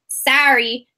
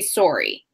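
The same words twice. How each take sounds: First: It is said in a Michigan accent. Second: It is said in a Canadian accent.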